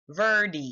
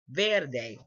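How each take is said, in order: First: The last syllable does not sound like 'day'. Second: The last syllable sounds like 'day'. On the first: The speaker calls it wrong. "Somebody else could say verdi. Verdi, and that's not right" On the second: The speaker calls it right. "Ver and like literally day"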